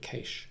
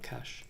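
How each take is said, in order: First: Cache is said the Australian way. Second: Cache is said the standard non-Australian way. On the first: The speaker calls it right. "the real pronunciation of that is actually cache" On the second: The speaker calls it wrong. "not cache"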